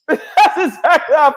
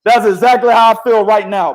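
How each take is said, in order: First: Repeated through laughter, higher; laughing. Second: Said in the usual way. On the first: Real, not acted. Host repeating his point to the cohost, laughing. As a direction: say it again while laughing.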